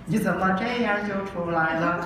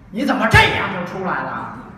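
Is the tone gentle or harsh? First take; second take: gentle; harsh. First: It is said in a light, gentle tone. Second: It is said in a heavier, harsher tone. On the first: It is a fond, teasing remark. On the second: It is an irritated reproach.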